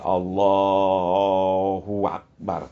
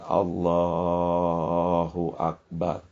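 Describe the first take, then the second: First: A 'w' sound comes before 'Akbar'. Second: No 'w' sound comes before 'Akbar'. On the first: The speaker calls it wrong. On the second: The speaker calls it right.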